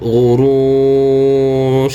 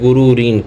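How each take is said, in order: First: The word ends cut off on the 'r'. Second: The word ends with an added 'in' sound. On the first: The reader stops at this word. "অক্ফ করবে ... শেষে যে দুই জেরের উচ্চারণ হবে না" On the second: The reading continues without stopping here. "আমরা যদি অক্ফ না করতাম তাহলে উচ্চারণ হতে"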